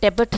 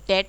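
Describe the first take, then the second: First: The b is pronounced in the word. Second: The b is silent in the word. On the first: The speaker calls it wrong. "डेबिट नहीं बोलते हैं" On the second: The speaker calls it right. "कर्ज को हम डेट बोलते हैं"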